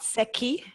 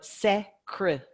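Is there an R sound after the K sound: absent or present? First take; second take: absent; present. First: There is no R sound after the K. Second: An R sound follows the K. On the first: The speaker calls it wrong. "not seki" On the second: The speaker calls it right. "but secre, ... C R in the middle"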